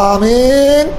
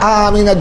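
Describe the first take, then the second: First: The word ends on a bare n consonant. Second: The word ends with an added a vowel. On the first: "এক রাত হলো আমিন" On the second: "আরেকটা হলো আমিনা"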